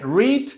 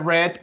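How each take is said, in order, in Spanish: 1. La palabra tiene su pronunciación de presente. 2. La palabra tiene su pronunciación de pasado. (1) "es la pronunciación en presente" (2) "allá era read"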